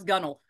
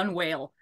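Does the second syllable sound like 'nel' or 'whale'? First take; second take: nel; whale. First: The second syllable sounds like 'nel'. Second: The second syllable sounds like 'whale'. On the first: The speaker calls it right. "At least he knows how to pronounce Gunnel" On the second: The speaker calls it wrong. "He doesn't say gun whale"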